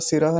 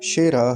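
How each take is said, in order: First: The word begins with a plain s sound. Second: The word begins with a sh sound. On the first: The speaker calls it wrong. "ये दंत्य सकार होता है" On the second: The speaker calls it right. "तालु से उच्चारण होगा"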